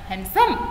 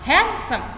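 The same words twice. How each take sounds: First: The stress is on the second syllable. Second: The stress is on the first syllable. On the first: The speaker calls it wrong. "bukan handsome" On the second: The speaker calls it right. "yang ditekan kata suku kata pertama"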